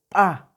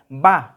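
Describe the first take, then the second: First: The first consonant is glottalized. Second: The first consonant is a plain b sound. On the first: The speaker calls it right. "entonces ya cambia el sonido de la B, sería pa" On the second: The speaker calls it wrong. "ya no se pronunciaría ba, como normalmente lo leemos en el español"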